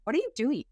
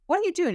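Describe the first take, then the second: First: High, curious mock amazement; amazed question. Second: Much higher and louder astonished echo; astonished repeat. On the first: Friends asking the slimmed-down client, high and amazed. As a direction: ask it like friends who can't believe the change. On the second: Retold or imitated. Friends pressing the client again, much higher and louder in astonishment. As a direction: repeat it, now truly floored. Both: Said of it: "Everybody's kind of going".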